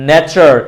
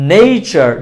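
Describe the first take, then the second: First: "nature" as "ne-char"; plain e in "nature", no glide; wrong pronunciation. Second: "nature" as "nei-char"; correct pronunciation. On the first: Teacher naming what to avoid, "nature" with plain e. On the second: Teacher naming the right form, "nature" with ei. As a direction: glide e to i in "nature". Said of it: "So this is". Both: Shown as a demonstration.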